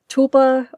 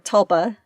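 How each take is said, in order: First: The first syllable sounds like the start of tulip. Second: The first syllable sounds like the start of Tulsa. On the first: "like tulip" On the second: "or tulsa"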